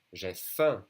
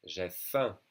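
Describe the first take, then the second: First: J'ai faim, nasal faim held; repeat for students. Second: J'ai faim said again more gently; softer repeat. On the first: Teacher repeats J'ai faim for class. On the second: Teacher repeats J'ai faim once more for students. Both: Shown as a demonstration. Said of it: "repeat after me".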